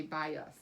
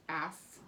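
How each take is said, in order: First: "by us" with an uh in the second syllable; schwa ending. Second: "ass" with a full short A; closed-syllable vowel. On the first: Teacher showing how bias is really said, schwa in "us". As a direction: say "by us", the last vowel flexed to uh. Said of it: "It's a schwa". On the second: Teacher showing how the syllable would typically sound, full vowel in "ass". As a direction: say "ass" with the unreduced vowel, as in cat. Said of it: "typically this would say". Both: Shown as a demonstration.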